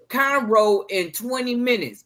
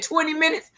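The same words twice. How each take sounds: First: Said in the usual way. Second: High, incredulous "Twenty minutes?"; surprised question. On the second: Retold or imitated. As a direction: ask it in disbelief. Retold incredulous reply.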